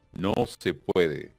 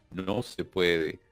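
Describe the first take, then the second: No difference in how they are said.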